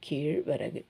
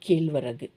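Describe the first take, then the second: First: The middle consonant is a retroflex zh sound. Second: The middle consonant is a plain l sound. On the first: The speaker calls it right. "Pronunciation இந்த இழு இழு" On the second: The speaker calls it wrong. "Not"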